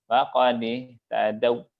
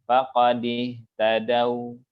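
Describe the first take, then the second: Both takes have the same delivery.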